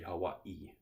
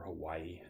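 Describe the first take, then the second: First: A glottal stop breaks the word before the end. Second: The word flows smoothly with no glottal break. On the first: "you sort of pause for that okina" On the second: "as it's typically sp- spoken in English"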